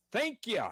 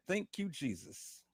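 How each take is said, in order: First: High, ecstatic cry of thanks; sudden high shout of praise; excited praise. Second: Said in the usual way. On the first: Real, not acted. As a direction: burst out in thanks to God. Praising God in prayer.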